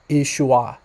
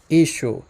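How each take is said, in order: First: The name ends in a 'ua' sound. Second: The name ends in a plain 'u' sound. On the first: This may be the older pronunciation. "earlier on it was pronounced Ishua" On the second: This is the modern Western pronunciation. "in the Western dialect, it's pronounced Ishu"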